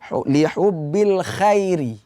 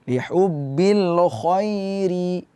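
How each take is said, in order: First: The 'kh' sound is light and thin. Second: The 'kh' sound is heavy and full. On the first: The speaker calls it wrong. "kho dibaca tipis" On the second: The speaker calls it right. "kho dibaca tebal"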